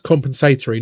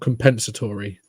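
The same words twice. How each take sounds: First: The word is said in a non-American pronunciation. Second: The word is said in the American pronunciation. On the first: The speaker calls it right. "It's compensatory" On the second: The speaker calls it wrong. "how Americans pronounce that word"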